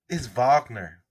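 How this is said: The name is said the German way.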